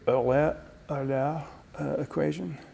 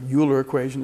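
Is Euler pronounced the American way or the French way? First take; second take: French; American. First: Euler is pronounced the way the French say it. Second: Euler is pronounced the way some Americans say it. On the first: "The French would probably say" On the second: "as some Americans say"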